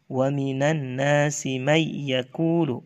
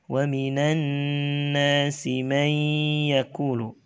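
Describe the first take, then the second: First: The nasal sound before yaqulu is cut short. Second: The nasal sound before yaqulu is held long. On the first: The speaker calls it wrong. "tidak membaca gunnah" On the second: The speaker calls it right. "harusnya dibaca"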